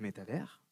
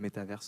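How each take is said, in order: First: The word ends without an S sound. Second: The word ends with an S sound. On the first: This is the French way to say it. "on ne prononce pas le S" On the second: This is the English way to say it. "en anglais"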